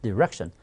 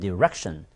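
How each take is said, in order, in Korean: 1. 강세는 두 번째 음절에 있어요. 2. 강세는 두 번째 음절에 있어요.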